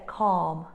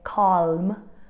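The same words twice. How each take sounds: First: The L sound is silent. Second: The L sound is pronounced. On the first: The speaker calls it right. "We would say calm" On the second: The speaker calls it wrong. "we won't say calm"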